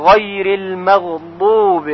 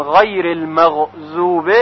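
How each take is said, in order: First: غیر المغضوب with ḍad from the tongue's side against the molars; correct ḍad. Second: غیر المغضوب with a Persian z for ḍad, invalid; wrong z sound. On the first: Teacher models correct ḍad in المغضوب. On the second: Teacher shows mistaken ḍad that voids prayer. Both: Shown as a demonstration. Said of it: "اگر بگوییم".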